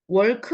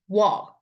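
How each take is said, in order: First: The vowel is said with rounded, closing lips. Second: The vowel is said with the mouth wide open. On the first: The speaker calls it wrong. "월크 아닙니다" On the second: The speaker calls it right. "입이 이렇게 머무러지지 않고 크게 벌어져요"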